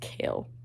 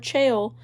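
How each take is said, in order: First: The name sounds just like the word kale. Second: The name is said the way it is spelled. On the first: The speaker calls it right. "sorry, it's Kale. I know it's pronounced like Kale" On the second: The speaker calls it wrong. "it's just Chaol in my head"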